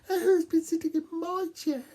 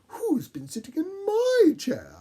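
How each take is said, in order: First: It is said in a tiny little voice. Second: It is said in a mellow, medium voice.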